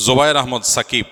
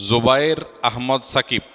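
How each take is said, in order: First: Said in the usual way. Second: "Zobayer Ahmad Shakib" spaced out word by word. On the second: Real, not acted. Groom's name repeated more slowly.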